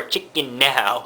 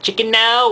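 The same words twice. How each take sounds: First: "Chicken Now" with NOW drawn out on its own; split into two words. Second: "Chicken Now" run quickly together as one word. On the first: Weighing the other reading, "Chicken Now" with a separate, drawn-out "Now". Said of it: "Chicken Now is two words". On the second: Asking how the shop name reads, "Chicken Now" as one word. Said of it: "Chicken Now in one word". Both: Shown as a demonstration.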